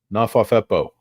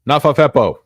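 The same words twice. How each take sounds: First: Said in the usual way. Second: Loud, higher silly voice; a booming goofy put-on voice; goofy shout. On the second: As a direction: belt the nonsense word like a cartoon.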